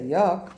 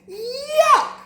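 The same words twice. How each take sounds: First: It is said flatly, without emotion. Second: It is said with a burst of emotion.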